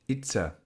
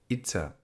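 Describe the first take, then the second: The two takes are said the same way.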